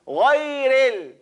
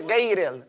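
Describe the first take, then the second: First: Slow "ghayril" as "gho-ee-ril", gh in the throat; correct pronunciation. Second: Hard g, ay vowel in "ghayril"; common mispronunciation. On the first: Teacher corrects what people say, slow throaty "ghayril". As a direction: draw out a throaty, open "ghayril". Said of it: "it's ghayril". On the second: Teacher copies what people say, wrong "ghayril". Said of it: "a lot of people say ghayril". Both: Shown as a demonstration.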